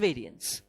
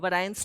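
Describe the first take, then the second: First: The first syllable sounds like 'vary'. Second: The first syllable sounds like 'very'. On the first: The speaker calls it right. "it's variance" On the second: The speaker calls it wrong. "variance लोग बोलते हैं, मत बोलो"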